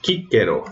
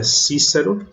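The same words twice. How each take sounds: First: Cícero said "kikero", hard K twice; Cícero with K sounds; classical Latin pronunciation. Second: Cícero said "sisero" with S sounds; Portuguese-style pronunciation. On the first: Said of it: "o nome". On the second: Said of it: "que em latim se escreve assim". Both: Shown as a demonstration.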